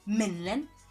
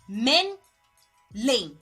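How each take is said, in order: First: The second syllable sounds like 'lin'. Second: The second syllable sounds like 'lane'. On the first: The speaker calls it wrong. "do not pronounce them Menlyn" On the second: The speaker calls it right. "It's Men Lane"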